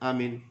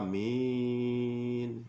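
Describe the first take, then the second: First: Both vowels are said short. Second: Both vowels are drawn out long. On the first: "pendek-pendek semua" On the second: "Membaca panjang semua"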